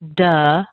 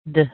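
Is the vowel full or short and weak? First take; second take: full; weak. First: The vowel is a full, longer 'uh' sound. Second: The vowel is a very short, weak sound. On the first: The speaker calls it wrong. "It's not duh" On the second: The speaker calls it right. "much shorter and much weaker"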